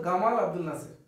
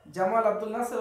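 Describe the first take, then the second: First: গামাল said with a hard g in place of j; Egyptian g for j. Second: Said in the usual way. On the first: Retold or imitated. Teacher shows students Egyptian Arabic pronunciation, hard g. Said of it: "মিশরীয়রা আরবিতে জিম উচ্চারণ করতে পারে না". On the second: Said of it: "ওরা বলতো গামাল আব্দুল নাসের".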